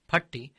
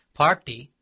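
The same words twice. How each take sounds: First: Party with a brief "uh", PUT-ti; short A. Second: Party with a drawn-out "aah", PAAT-ti; long A. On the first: Explaining the word for a dwelling place, short A in Party. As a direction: keep the first vowel of Party short. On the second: Explaining the word for grandmother, long A in Party. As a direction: hold the first vowel of Party long. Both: Shown as a demonstration. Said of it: "length of vowel becomes very significant".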